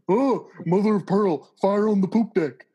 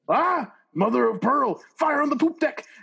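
First: It is said in a Patrick impression. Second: It is said without a Patrick impression.

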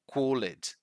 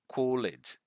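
Both takes have the same delivery.

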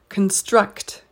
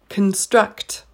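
No difference in how they are said.

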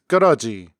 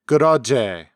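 First: It is said in standard Korean pronunciation. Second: It is said in the Jeolla dialect pronunciation. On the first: "The phrase you're right is goroji" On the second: "In the Jeolla accent, it would be goroje"

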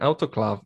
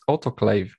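First: It is pronounced with a German-style reading. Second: It is pronounced with an English-style reading. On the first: "Why, German?" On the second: "no, it's autoclave"

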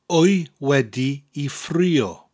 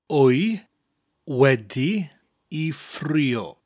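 First: It is said at normal speed. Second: It is said slowly.

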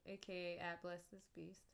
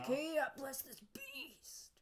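First: It is said plainly with little energy. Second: It is said with loud, punchy energy. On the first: The speaker calls it wrong. "You gotta say it with a little bit more oomph" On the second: The speaker calls it right. "that kind of sounded like a 90s like sports ad"

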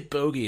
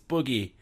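First: The first vowel sounds like 'oh'. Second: The first vowel sounds like 'oo'. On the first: This is the British form. The speaker calls it wrong. "don't say bogey" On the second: This is the American form. The speaker calls it right. "it's boogie"

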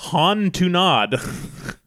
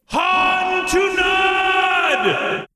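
First: It is said at normal speaking volume. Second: It is screamed loudly like a battle cry.

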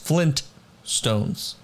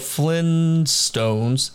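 First: The t after the n is pronounced. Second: The t after the n is dropped. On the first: The speaker calls it right. "It's Flintstones" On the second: The speaker calls it wrong. "We've been pronouncing it without the first one"

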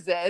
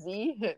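First: The letter is said the British way, zed. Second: The letter is said the American way, zee.

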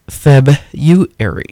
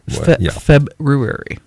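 First: The first r sound is dropped. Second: The first r sound is pronounced. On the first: This is the common modern pronunciation. "the most common pronunciation of the word is February" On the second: This is the traditional standard pronunciation. "the less common but more traditional standard February, which is how I pronounce it"

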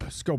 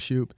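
First: The name begins with an 'sk' sound. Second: The name begins with an 'sh' sound. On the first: The speaker calls it right. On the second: The speaker calls it wrong.

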